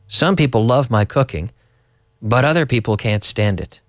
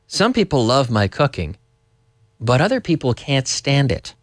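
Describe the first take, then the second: The two takes are said the same way.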